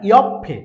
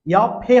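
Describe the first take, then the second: First: Loud ইয়ফে as "yop-phe", p doubled; correct pronunciation. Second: Louder ইয়ফে as "yo-phe", single p sound; wrong pronunciation. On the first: Teacher correcting the single-p reading, correct pronunciation. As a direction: close on the p in ইয়ফে, then release "phe". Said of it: "ইয়ফে হবে না". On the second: Teacher showing the form to avoid, wrong pronunciation. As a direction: say ইয়ফে without doubling the p. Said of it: "হবে না". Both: Shown as a demonstration.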